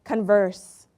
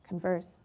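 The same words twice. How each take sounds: First: "Converse" with stress on the first syllable, CON-verse; noun stress. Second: "Converse" with stress on the second syllable, con-VERSE, dropping softly; verb stress. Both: Shown as a demonstration. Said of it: "the opposite or to talk?".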